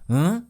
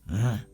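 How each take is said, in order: First: The pitch rises on the sound. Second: The pitch falls on the sound. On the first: Everyone else is stupid. "There's one that goes up, The up one is condescending" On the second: A king is talking down to subjects. "there's one that goes down. the other one is like"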